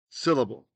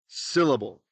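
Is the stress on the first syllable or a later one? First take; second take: first; first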